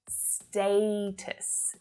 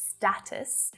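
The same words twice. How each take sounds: First: The first vowel is a long 'ay' sound. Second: The first vowel is a short 'a' sound. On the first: The speaker calls it right. "but status" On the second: The speaker calls it wrong. "not with the short a vowel sound like status"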